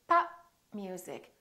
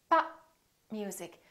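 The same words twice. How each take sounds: The two takes are said the same way.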